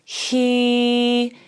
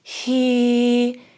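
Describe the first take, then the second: First: The vowel starts with audible breath before it. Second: The same.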